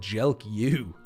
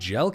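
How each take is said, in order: First: The name gets an extra final 'you' syllable. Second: The name is said as one syllable. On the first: "I said Jelk you. That was more of a threat than anything" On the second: "instead of saying Jelk"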